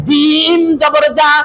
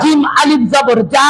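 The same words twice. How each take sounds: First: "জিম জবর জা" with the final "জা" kept short; short vowel. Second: "জিম আলিফ জবর জা" with the final "জা" held long; stretched vowel. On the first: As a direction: end "জিম জবর জা" on an unstretched "জা". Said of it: "খালি জবর, জের, পেশের উচ্চারণ তাড়াতাড়ি". ("জিম জবর জা"-র শেষের "জা" টান ছাড়া) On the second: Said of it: "জবরের বাম পাশে". ("জিম আলিফ জবর জা"-র শেষের "জা" লম্বা টেনে) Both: Shown as a demonstration.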